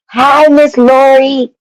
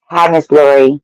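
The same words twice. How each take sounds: First: Excited greeting. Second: Said in the usual way. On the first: Real, not acted. Greeting a viewer in chat.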